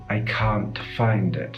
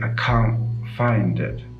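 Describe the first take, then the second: First: The T in can't is clearly released. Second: The T in can't is not released. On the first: The speaker calls it wrong. "we don't tend to say" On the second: The speaker calls it right. "the T at the end of can't is often not released"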